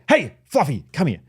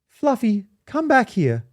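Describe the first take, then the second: First: It sounds firm and commanding. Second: It sounds weak and pleading, like a pushover.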